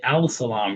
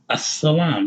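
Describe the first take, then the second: First: A clear L sound comes before the S. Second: The L blends into a doubled S sound. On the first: The speaker calls it wrong. "You don't say Al-Salam" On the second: The speaker calls it right. "You say As"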